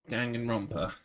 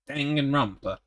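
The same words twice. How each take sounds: First: It is said in his normal voice. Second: It is said in a put-on announcer-style voice.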